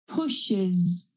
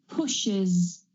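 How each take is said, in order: The two takes are said the same way.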